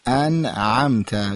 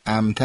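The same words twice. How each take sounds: First: انعمت drawn out very slowly, opening on a throaty Arabic ʿayn; انعمت with a clear pharyngeal ʿayn, spoken very slowly; correct Arabic ʿayn. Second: انعمت with a plain Persian glottal a at the start, no Arabic ʿayn; wrong Persian way. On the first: Teacher slowly modelling the Arabic ʿayn for the caller. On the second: Teacher showing the caller the wrong Persian reading. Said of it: "انعمت نگیم". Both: Shown as a demonstration.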